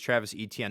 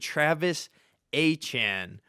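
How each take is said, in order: First: The surname sounds like 'Etienne'. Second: The surname sounds like 'Achan'. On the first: The speaker calls it wrong. "My whole life, I thought it was Travis Etienne" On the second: The speaker calls it right. "it is actually Travis Achan"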